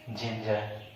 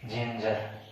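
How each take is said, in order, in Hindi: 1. यह शब्द j ध्वनि से शुरू होता है। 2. यह शब्द j ध्वनि से शुरू होता है।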